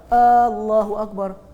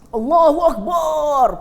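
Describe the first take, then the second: First: The first vowel at the start is drawn out long. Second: The final syllable bar is drawn out long. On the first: It turns the phrase into a question. "Lagi panjang kat depan" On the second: It likens God to a drum. "panjang bar, nampak macam bersemangat padahal salah"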